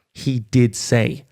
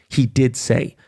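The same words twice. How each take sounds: First: Did drawn out slowly, hard; slow, deliberate He did say; stress on did. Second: Said in the usual way. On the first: Real, not acted. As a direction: lean on the word did. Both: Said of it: "he did say that".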